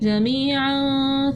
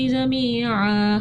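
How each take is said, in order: First: The word ends with 'an' joined to the next. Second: The word ends on a long 'a' before a stop. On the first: The reader carries on into the next words. "मिला के जब पढ़ा तो तनवीन को पढ़ा" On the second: The reader stops after this word. "हमने वक्फ अलिफ डाल किया था"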